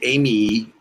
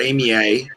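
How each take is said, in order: First: The name ends with an ee sound. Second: The name ends with an ay sound. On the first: "you wouldn't say Amy" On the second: "or Amy A"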